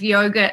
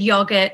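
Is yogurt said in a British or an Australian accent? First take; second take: Australian; British. First: It is said with an Australian pronunciation. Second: It is said with a British pronunciation. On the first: This is how the locals say it. "instead of yogurt" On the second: This is how the speaker said it growing up. "I said yogurt instead of"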